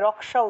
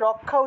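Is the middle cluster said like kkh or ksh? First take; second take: ksh; kkh. First: The middle cluster sounds like k followed by sh. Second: The middle cluster sounds like a doubled k plus kh. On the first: The speaker calls it right. "রক্ষা উচ্চারণ করা উচিত ছিল" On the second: The speaker calls it wrong. "রক্ষা উচ্চারণ না করে"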